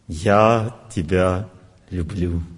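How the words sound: It is said in a passing mood. The feeling is expressed as a current mood. "Звук настроения"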